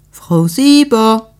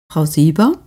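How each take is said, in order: First: Louder, slow, drawn-out call of "Sieber"; calling out to be heard through the door; impatient drawn-out call through the door; insistent call. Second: Said in the usual way. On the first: Acted. Neighbour calls at the door.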